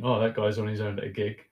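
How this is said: It is said with a pitying, judging tone. Being alone at a gig seems sad. "rather than people looking and thinking"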